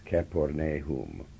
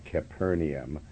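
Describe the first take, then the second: First: It has the Hebrew-style pronunciation. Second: It has the common English pronunciation. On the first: The speaker calls it right. "This is the way the Hebrews pronounce Capernaum" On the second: The speaker calls it wrong. "it's not Capernaum"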